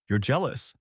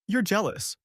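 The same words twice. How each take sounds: First: Understated, dismissive scoff. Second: High-pitched, scoffing accusation. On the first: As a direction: toss it off with mild scorn. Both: A narrator's reading. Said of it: "she scoffed".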